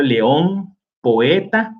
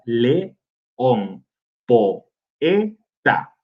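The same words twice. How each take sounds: First: Said in the usual way. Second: "león, poeta" repeated slowly with falling ends to show the separate syllables; deliberate repeat. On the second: Shown as a demonstration. Teacher repeating example words for students, slow and falling. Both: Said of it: "que forman sílabas separadas".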